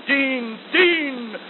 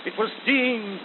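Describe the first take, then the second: First: Rising call. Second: Said in the usual way. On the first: Shown as a demonstration. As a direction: build the call up. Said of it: "refrain repeated, rising". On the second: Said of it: "refrain said again, building".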